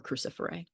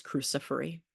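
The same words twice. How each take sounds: First: Cruciferae ending in an "ay" sound; alternative pronunciation. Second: Cruciferi ending in an "ee" sound; old name's pronunciation. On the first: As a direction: finish cruciferae on "ay". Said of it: "or cruciferae". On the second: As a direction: finish cruciferi on a long "ee". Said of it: "the old name for this one was". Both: Shown as a demonstration.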